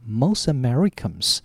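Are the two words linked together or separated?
linked. The two words run together as one unit. The speaker calls it right. "把它合起来叫做Most Americans"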